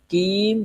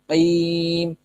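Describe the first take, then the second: First: It starts with a plain front k sound. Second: It starts with a deep throat q sound. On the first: The speaker calls it wrong. "Bukan kim" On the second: The speaker calls it right. "tapi qim, qaf"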